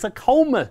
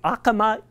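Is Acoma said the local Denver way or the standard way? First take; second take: local Denver; standard. First: Acoma is said with the local Denver pronunciation. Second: Acoma is said with its standard pronunciation. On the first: It names the local Denver street. "It's a Coma Street locally" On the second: It names the New Mexico tribe. "there is the Acoma Indian tribe"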